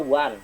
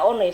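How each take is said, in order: First: It is said the English way, like 'wun'. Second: It is read letter by letter, like 'oh-neh'. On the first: The speaker calls it right. "dalam bahasa Inggris dibaca one, kaidah bahasa Inggris" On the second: The speaker calls it wrong. "Kalau Bapak baca one, salah"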